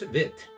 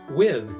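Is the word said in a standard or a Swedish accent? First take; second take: Swedish; standard. First: It is said with Swedish v and t. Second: It is said with standard English w and th.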